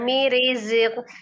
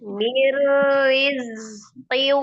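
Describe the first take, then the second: First: The r is short and single. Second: The r is long and rolled. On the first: The speaker calls it wrong. "Jangan mirizq" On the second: The speaker calls it right. "Pasti teronya"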